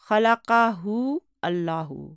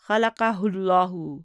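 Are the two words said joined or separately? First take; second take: separately; joined. First: The two words are said separately. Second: The two words are joined into one.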